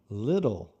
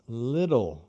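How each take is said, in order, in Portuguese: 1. O T do meio é uma batida rápida, como o R. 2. O T do meio é uma batida rápida, como o R.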